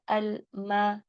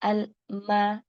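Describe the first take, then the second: The two takes are said the same way.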